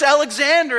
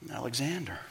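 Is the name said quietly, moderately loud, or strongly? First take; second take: strongly; quietly. First: It is said loudly and strongly. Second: It is mumbled very quietly.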